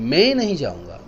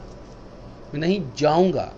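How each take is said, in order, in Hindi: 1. "मैं" पर मुख्य स्ट्रेस है। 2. "जाऊंगा" पर मुख्य स्ट्रेस है। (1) "मैंने कोई और जाए" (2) "जाऊंगा नहीं, कुछ और करूंगा"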